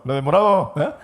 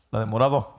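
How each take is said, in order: First: The same words thrown out loud; loud mock call. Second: Pointing her out through a laugh. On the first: The speaker re-does his brother's line about a girl, loud teasing call. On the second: Retold or imitated. Brother nudges him about a girl, laughing. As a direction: say it while giggling.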